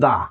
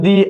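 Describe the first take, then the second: First: The vowel is short and neutral, like 'thuh'. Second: The vowel is long and high, like 'thee'. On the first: The next word starts with a consonant. "Consonant হলে কি হবে? দা।" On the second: The next word starts with a vowel. "Vowel হলে দি।"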